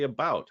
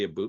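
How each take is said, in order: First: The vowel sounds like the ou in out. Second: The vowel sounds like the oo in boot. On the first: This is how the speaker believes they actually say it. The speaker calls it right. "We say about" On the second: This is how outsiders caricature the speaker's accent. The speaker calls it wrong. "Americans say aboot, it's like, no, we don't say aboot"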